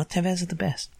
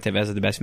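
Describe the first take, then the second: First: Catchy slogan. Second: Said in the usual way. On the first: Shown as a demonstration. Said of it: "super catchy in my head". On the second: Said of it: "follow me on the podcast".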